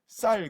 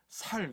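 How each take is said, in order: First: It begins with a tense, strong s sound. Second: It begins with a plain, soft s sound. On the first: "쌍시옷이냐 시옷이냐" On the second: "경상도 분들은 살 그런다는 거예요"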